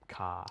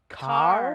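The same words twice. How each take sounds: First: It has an Australian accent with a silent final R. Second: It has an American accent with the final R sounded.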